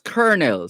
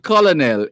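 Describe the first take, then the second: First: It is said unlike its spelling. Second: It is said the way it is spelled. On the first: The speaker calls it right. "it's colonel" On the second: The speaker calls it wrong. "On the face of it, you would you would perhaps say colonel, but it's not colonel"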